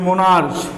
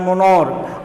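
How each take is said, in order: First: The word ends with a 'ch' sound. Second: The word ends with a 'k' sound. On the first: The speaker calls it wrong. "अगर इसका आप हिंदी करते हो, उच्चारण करते हो मोनार्च ... गलत हो जाएगा" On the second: The speaker calls it right. "इसका उच्चारण होता है मोनॉर्क"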